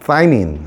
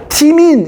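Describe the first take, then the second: First: 사이민 opening on a th sound, then "eye"; English th pronunciation. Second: 티민 with a hard T and "ee" vowel; old-style Korean reading. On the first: Teacher showing how it is read nowadays, th pronunciation. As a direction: say 사이민 as "thigh-meen". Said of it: "쓰, 번데기 발음이라고 하지". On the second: Teacher showing students the older reading, old-style pronunciation. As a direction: say 티민 as "tee-meen". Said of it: "이렇게 읽었어요. 예, 예전에는". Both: Shown as a demonstration.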